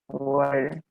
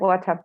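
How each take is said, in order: First: It is said with an American accent. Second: It is said with a British accent. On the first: "if I'm talking or trying to use the American accent" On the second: "when I, I don't think so much about, it's like"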